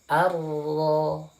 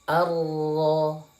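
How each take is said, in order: No difference in how they are said.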